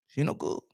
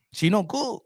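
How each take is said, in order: First: Hushed whispered repeat; whispered echo of the verdict. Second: Said in the usual way. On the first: Shown as a demonstration. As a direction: breathe it out as a whispered aside.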